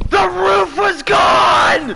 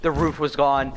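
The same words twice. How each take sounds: First: High, slow, loud disbelief; outraged shout. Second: Said in the usual way. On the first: Real, not acted. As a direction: yell it out in outrage. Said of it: "Sorry, I didn't mean to yell".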